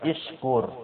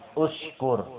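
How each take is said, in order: First: The word begins with the vowel i. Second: The word begins with the vowel u. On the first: The speaker calls it wrong. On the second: The speaker calls it right. "baca hamzah wasolnya pun domma"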